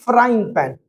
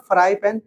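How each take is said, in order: First: "frying pan" with the -ing clearly included; correct term FRYING PAN. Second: "fry pan" said without the -ing ending; wrong term FRY PAN. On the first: Teacher correcting students on the pan's name, right form "frying pan". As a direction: say "frying pan" slowly, two syllables in "frying". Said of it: "that is frying pan". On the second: Teacher correcting students on the pan's name, wrong form "fry pan". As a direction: say "fry pan", one bare syllable in "fry". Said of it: "this is not fry pan". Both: Shown as a demonstration.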